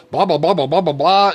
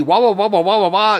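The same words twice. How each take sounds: First: Raised, louder blah-blah nonsense; mock dad babble. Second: Put-on high, loud childish wah-wah babble; mock kids' babble. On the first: Father mocking his own explanations, raised blah-blah babble. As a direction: rattle it off like his own long answers. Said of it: "and I would go". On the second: Father mocking his children's questions, high childish babble. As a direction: mimic the kids' nagging as high yammering nonsense. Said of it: "my children would ask me".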